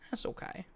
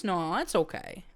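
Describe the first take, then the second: First: Soft whispered aside; whispering. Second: Said in the usual way. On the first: Real, not acted. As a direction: whisper it to yourself. Whispered repeat to herself.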